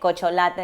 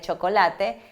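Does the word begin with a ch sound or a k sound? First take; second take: k; ch. First: The word begins with a k sound. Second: The word begins with a ch sound. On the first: The speaker calls it wrong. "el niño te dice cocholate en vez de chocolate" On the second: The speaker calls it right. "en vez de chocolate"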